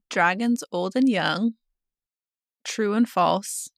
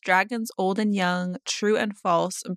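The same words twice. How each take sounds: First: It is read slowly. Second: It is read at normal speed.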